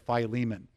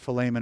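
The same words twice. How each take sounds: First: The name is pronounced the usual English way. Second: The name is pronounced the Greek way. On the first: "Everybody says" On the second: "the way that you would pronounce it in Greek"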